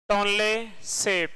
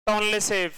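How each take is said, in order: First: Tonle सेप drawn out slowly, syllable by syllable; slow, spelled-out name. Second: Said in the usual way. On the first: Shown as a demonstration. Teacher slowly dictating the lake name to students. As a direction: stretch out Tonle सेप so the class can follow.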